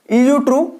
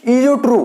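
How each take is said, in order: First: ईयू ट्रू spelled out slowly, each syllable clear, rising at the end; careful repeat. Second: Said in the usual way. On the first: Shown as a demonstration. (ईयू ट्रू को धीरे-धीरे, साफ़ और ऊपर उठती आवाज़ में दोहराना) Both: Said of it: "पहला है ईयू ट्रू".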